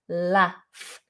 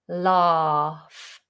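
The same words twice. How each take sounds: First: The vowel is short, like in 'cat'. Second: The vowel is long and open, like 'ah'. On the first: "a northern version, which is also the same as a American version, and it's with a short vowel" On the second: "instead of a long R"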